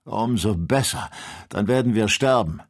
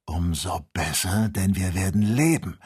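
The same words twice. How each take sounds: First: Louder, bitter despair; desperate rage. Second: Calm hope. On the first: Kennedy in desperate rage, expecting death. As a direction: spit it out in hopeless fury. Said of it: "mit verzweifelter Wut". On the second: The doctor answering Kennedy, calmly hopeful. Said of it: "erwiderte der Doktor". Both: A narrator's reading.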